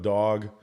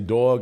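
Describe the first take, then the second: First: It is said in a neutral American accent. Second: It is said in a New York accent. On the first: "instead of dog" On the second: "I say dog"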